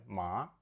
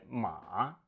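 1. Слог произносится вторым тоном. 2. Слог произносится третьим тоном.

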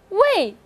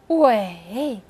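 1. 音高从高处急剧下降到低处。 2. 音高先降到低处，然后再升高。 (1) "第四个是围" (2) "第三个是围"

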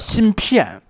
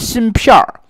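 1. 这个词结尾没有儿化。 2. 这个词结尾是儿化音。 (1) "就叫芯片" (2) "不能加儿化音，不能叫芯片儿"

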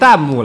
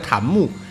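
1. 第一个音节读作降调的 'dàn'。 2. 第一个音节读作升调的 'tán'。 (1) "像子弹一样飞过来就念弹幕了" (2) "所以他弹出来叫弹幕也没啥问题"

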